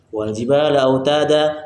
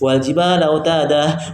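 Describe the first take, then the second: First: The final long vowel is cut short. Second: An h sound is added after the final vowel. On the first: "sehingga madnya hilang" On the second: "menambah ha di belakangnya"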